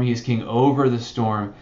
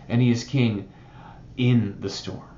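First: "over" leaned on, falling firmly; stress on over. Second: "in" leaned on, dropping softer and lower; stress on in. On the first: Pastor stating his point, leaning on "over". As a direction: hit "over" in "king over the storm". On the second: Pastor contrasting his point, softly stressing "in". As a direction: press the word "in", then let it fall away. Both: Shown as a demonstration. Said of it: "this story teaches that".

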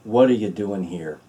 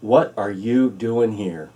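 First: Gentle, tender question. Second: Slow, deliberate question from God; slow, wondering question. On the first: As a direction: ask it gently, like a loving father. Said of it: "in a gentle way, in a whisper". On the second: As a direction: ask it slowly, letting each word land. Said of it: "something like this". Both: Shown as a demonstration.

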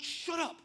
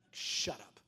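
First: High-pitched mock exasperation; exasperated retort. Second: Low, deadpan mock rebuff; dry retort. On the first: Preacher talks back to God, high and exasperated. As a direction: jump up high, comically indignant. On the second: Preacher answers the Holy Spirit back, low and dry. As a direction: drop the pitch right down, unimpressed.

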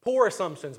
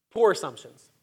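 First: Said in the usual way. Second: "Poor" pressed hard in "Poor assumptions"; firmly restated "Poor assumptions" for emphasis; emphatic repeat. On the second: Shown as a demonstration.

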